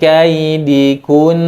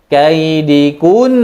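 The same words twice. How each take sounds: First: The word is said plainly without extra stress. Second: The word is said with an extra stress. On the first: The speaker calls it right. "tidak boleh dinambarkan, tapi min kaidikun begitu saja" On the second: The speaker calls it wrong. "Tidak boleh kaidikun"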